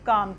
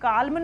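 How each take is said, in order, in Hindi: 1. "calm" में L की ध्वनि नहीं बोली जाती। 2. "calm" में L की ध्वनि बोली जाती है। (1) "इसको हम क्या पढ़ेंगे? काम" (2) "काल्म नहीं पढ़ेंगे"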